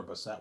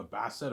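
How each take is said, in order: First: Bassett with a reduced first vowel, buh-SET; stress on second syllable. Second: Bassett stressed on BASS, with a full first vowel; stress on first syllable. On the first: Unsure of the actress's surname, Bassett said as buh-SET. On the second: Trying out the actress's surname, Bassett stressed up front as BASS-et. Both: Shown as a demonstration. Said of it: "Angelina Bassett or Bassett".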